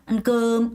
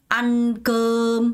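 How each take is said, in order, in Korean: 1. 강세는 두 번째 음절에 있어요. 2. 강세는 첫 번째 음절에 있어요. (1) "안금 이렇게 읽는다는 거죠" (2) "안금 하고 읽는 게 아니라"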